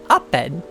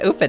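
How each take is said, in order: First: The first vowel is short, like in 'opposite'. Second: The first vowel is long, like in 'open'. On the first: The speaker calls it right. "It's Oppen" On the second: The speaker calls it wrong. "It's not open"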